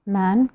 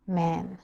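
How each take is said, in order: First: "Man" with an open, long British A. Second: "man" with a flat American æ. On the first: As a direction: say "Man" with a broad British vowel. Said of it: "British people". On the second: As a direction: say "man" with the American short vowel. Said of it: "American people". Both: Shown as a demonstration.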